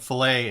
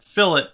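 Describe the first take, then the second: First: The word is said the cooking way. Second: The word is said the engineering way. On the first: "fillet is the cooking way" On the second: "fillet is the engineering way to pronounce the word"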